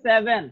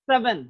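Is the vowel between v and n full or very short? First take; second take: full; very short. First: The vowel between v and n is full. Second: The vowel between v and n is very short. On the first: The speaker calls it wrong. "আমরা বলি সেভেন" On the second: The speaker calls it right. "আসলে V এবং N এর মধ্যে short হবে"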